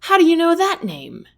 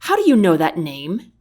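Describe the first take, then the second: First: Much higher, jolted question; shocked he knows the name; startled. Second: Said in the usual way. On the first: Acted. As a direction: caught off guard, demanding. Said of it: "Tennyson jolts his head back".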